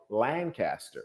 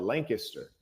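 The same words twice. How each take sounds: First: It is pronounced the California way. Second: It is pronounced the Pennsylvania way. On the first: This is how the California town is named. "there's another town with the same spelling in California, and they call it Lancaster" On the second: This is how the Pennsylvania town is named.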